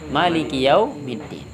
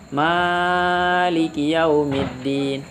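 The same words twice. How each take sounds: First: The vowel after the m is kept short. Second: The vowel after the m is held long. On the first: "atau boleh juga" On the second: "Boleh mimnya dibaca panjang"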